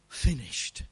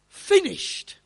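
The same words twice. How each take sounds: First: It is said weakly and pitifully. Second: It is cried out triumphantly. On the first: The speaker gives up in defeat. The speaker calls it wrong. "not in a sort of pitiful, wimpy way" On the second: The speaker has completed the task. The speaker calls it right. "in a triumphant sort of cry"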